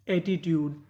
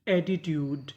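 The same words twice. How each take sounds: The two takes are said the same way.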